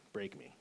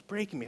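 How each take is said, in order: First: Hushed, understated command; retold Holy Spirit. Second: High-pitched cry at moderate volume; retold yell. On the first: Holy Spirit answering a desperate man, quiet instruction. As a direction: say it softly and simply, as a retold divine word. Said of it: "I hear the Holy Spirit say". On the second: Man praying alone outside, mock yelled plea. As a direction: call it out high, imitating a yell. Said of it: "just yelling top of my lungs".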